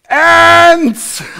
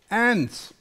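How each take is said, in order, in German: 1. Das Wort wird sehr laut gesagt, fast geschrien. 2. Das Wort wird in normaler, leiser Lautstärke gesagt.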